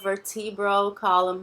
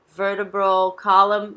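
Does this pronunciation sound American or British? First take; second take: British; American. First: It is said with a British pronunciation. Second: It is said with an American pronunciation. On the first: "um pouco mais britânico" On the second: "mais americano"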